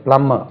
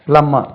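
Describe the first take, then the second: No difference in how they are said.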